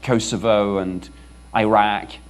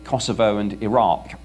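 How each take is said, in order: First: The place names are said in a non-British way. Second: The place names are said in a British way.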